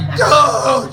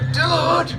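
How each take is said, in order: First: It sounds alarmed and horrified. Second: It sounds annoyed and embarrassed. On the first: Shock at a serious injury. "he blew off one of his fingers with an M eighty firework" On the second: Objection to being intruded upon. "you walked in on him in the bathroom"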